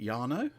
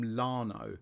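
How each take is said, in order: First: The name begins with a Y sound. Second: The name begins with an L sound. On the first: "is it Yano?" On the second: "I always call him Lano, but it's actually an I and it's not an L"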